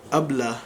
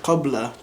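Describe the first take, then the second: First: "abla" with a glottal stop for q; "abla" the Egyptian way; Egyptian Arabic pronunciation. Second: "qabla" with a clear qaf; standard Arabic pronunciation. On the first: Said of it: "They would say". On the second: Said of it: "another Arabic word". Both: Shown as a demonstration.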